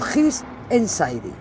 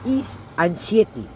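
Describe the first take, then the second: First: The name is given an approximate English pronunciation. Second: The name is read out letter by letter, Spanish-style. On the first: "algo así como His Anxiety" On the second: "si lo leo literalmente sería His Anxiety"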